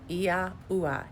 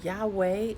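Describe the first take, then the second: First: The name is said with three syllables. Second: The name is said with two syllables. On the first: The speaker calls it right. "That's how you pronounce it" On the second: The speaker calls it wrong. "Yahweh is not how it's pronounced"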